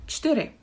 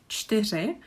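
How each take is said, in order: First: The word is said with a simplified consonant cluster. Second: The word is said with its full consonant cluster. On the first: This is a casual native shortcut. "It's not the official way, but we can say something like čtyři" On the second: This is the official pronunciation. "If you really struggle with the word čtyři"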